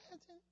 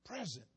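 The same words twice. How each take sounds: First: Breathy mock girl. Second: Said in the usual way. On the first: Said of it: "Everybody else would sound off like Melvin". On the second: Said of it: "Present meant, "I am ready".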